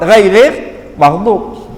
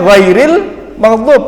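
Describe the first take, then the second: First: The R sound is pronounced in a distorted way. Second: The R sound is pronounced clearly. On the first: The speaker calls it wrong. "dia nggak bisa ngomong ra" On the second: The speaker calls it right.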